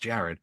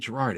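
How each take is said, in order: First: The name is said like Jared. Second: The name is said like Gerard. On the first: The speaker calls it right. "It's Jared" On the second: The speaker calls it wrong. "Don't say Gerard"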